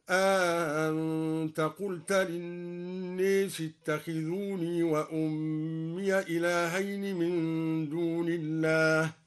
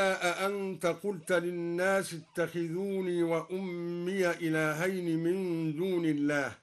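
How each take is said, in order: First: أأنت with the second hamza softened and an alif inserted, aa-ant; eased hamza with alif. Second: Said in the usual way. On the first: Shown as a demonstration. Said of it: "بتسهيل الهمزة الثانية مع إدخال ألف بينها وبين الأولى هكذا". (تسهيل الهمزة الثانية مع الإدخال في أأنت) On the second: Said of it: "بتسهيل الهمزة الثانية مع إدخال ألف".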